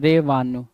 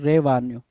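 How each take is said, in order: Both takes have the same delivery.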